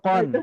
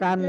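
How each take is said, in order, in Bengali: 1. স্বরধ্বনিটি একটি গোলাকৃত, গাঢ় 'o'। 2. স্বরধ্বনিটি একটি খোলা, অগোলাকৃত 'a'। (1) "কফ দুই জবর কন" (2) "কান না"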